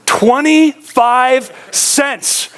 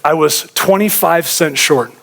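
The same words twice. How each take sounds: First: "Twenty-five cents" drawn out very slowly and pitched higher; slow emphatic repeat. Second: Said in the usual way. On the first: Real, not acted. Preacher to congregation, stressing the toll booth shortfall, very slow and emphatic. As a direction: let each word of "Twenty-five cents" land slowly, stunned.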